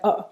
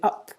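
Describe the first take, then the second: First: The word ends with a glottal stop. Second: The word ends with a clear p sound. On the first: "I replace it by a glottal stop" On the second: "pronounce it carefully, up with a p at the end"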